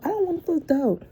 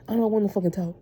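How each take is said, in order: First: Exasperated outburst. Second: Said in the usual way. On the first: Real, not acted. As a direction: pitch jumps way higher on the first say. Fed up with pestering coworkers.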